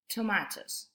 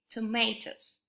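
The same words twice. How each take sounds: First: It is said with a British accent. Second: It is said with an American accent.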